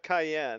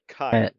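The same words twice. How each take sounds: First: It is pronounced like the pepper cayenne. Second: It is pronounced unlike the pepper cayenne. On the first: The speaker calls it wrong. "not Kyan, not like the pepper" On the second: The speaker calls it right. "but Kyan"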